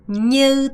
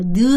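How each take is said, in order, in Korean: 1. 이 단어는 ny 소리로 시작해요. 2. 이 단어는 평범한 n 소리로 시작해요. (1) "이렇게 발음하셔야 되는데" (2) "제발 느 하지 마세요"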